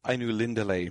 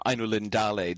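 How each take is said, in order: First: Ainu Lindale stressed on AI and LIN; AI-nu LIN-da-le, two natural stresses; stress on first and third. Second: Ainu Lindale with the stress pushed onto DA; ai-nu-lin-DA-le, one long word; second-to-last stress. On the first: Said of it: "stress on the first and the third syllable". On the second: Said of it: "stress on the second to last syllable". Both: Shown as a demonstration.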